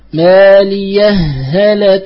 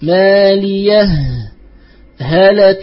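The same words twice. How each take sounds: First: The words run together, the final sound merging. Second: A short stop separates the words, each sound clear. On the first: "إن أدرجت أي إن وصلت فأدغم" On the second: "وإن سكت فأظهر"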